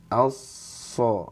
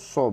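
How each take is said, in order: First: The jaw is raised without pushing the lips. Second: The lips are pushed forward and rounded. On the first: The speaker calls it right. "Tapi ini aja angkat" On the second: The speaker calls it wrong. "Bukan sengaja mencucukan so, so, bukan"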